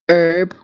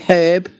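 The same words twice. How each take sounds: First: It is pronounced the American way. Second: It is pronounced the Australian way. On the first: "Americans say herb" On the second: "we say herb"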